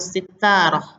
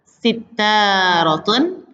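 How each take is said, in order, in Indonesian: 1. Kata ini berakhir polos, tanpa vokal akhir. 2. Kata ini berakhir dengan vokal dan n.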